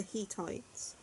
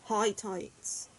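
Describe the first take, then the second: First: Hittites with an "ee" first syllable, drawn out slowly; Hittites as HEE-tites. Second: Hittites with a long "eye" first syllable; Hittites as HIGH-tites. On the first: Reviewer offering the other pronunciation, Hittites as HEE-tites. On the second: Reviewer recalling how to pronounce it, Hittites as HIGH-tites. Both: Shown as a demonstration. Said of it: "tell me how to pronounce this".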